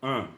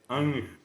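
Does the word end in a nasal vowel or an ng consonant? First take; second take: nasal vowel; ng consonant. First: A single nasalized vowel with no consonant after it. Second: A plain vowel followed by an ng consonant. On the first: The original Guaraní word for soul. "la palabra original es ah, ah, nasal" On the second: A spelling-based rendering for Spanish speakers. "le agregaron una N y una G"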